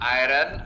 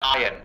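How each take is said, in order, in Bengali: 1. শব্দটি r ধ্বনি দিয়ে বলা হয়। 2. শব্দটি r ধ্বনি ছাড়া বলা হয়। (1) "আমরা করি" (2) "নেটিভ ব্রিটিশরা বলে আয়ন"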